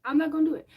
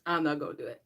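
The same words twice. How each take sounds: First: Higher, louder firm refusal; emphatic self-restraint. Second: Said in the usual way. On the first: Real, not acted. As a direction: insist firmly you won't. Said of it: "repeated emphatically". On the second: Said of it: "repeated decision".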